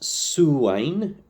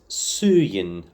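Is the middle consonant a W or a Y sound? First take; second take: W; Y. First: The middle consonant is a W sound. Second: The middle consonant is a Y sound. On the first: "today we'll go with Suwain because that seems to be the more common one" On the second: "I pronounced Suwain as Suyin under under the bridge"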